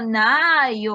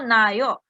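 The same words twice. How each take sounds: First: The a vowel is long, two a's. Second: The a vowel is short, one a. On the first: The speaker calls it right. "digo nayo, que se note que estoy pronunciando dos A" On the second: The speaker calls it wrong. "No digo nayo"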